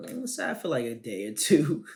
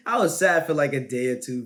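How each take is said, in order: First: Said in the usual way. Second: Laughing through the words. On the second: Real, not acted. Said twice, second laughing.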